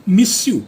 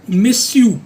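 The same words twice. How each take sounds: First: Miss you said with the y sound dropped, like missu; without the y. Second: Miss you as the French monsieur, said louder; monsieur drill. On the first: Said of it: "य नहीं बोलना". (miss you बिना य के) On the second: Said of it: "ये जो मैंने लिखा है miss you". (monsieur को miss you की तरह) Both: Shown as a demonstration.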